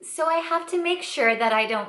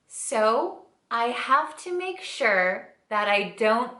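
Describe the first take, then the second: First: It is spoken at a natural, quicker pace. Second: It is spoken at a noticeably slower pace.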